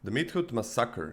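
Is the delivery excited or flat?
excited. It is said in an excited, dramatic way. The speaker calls it right. "Yeah, that's better"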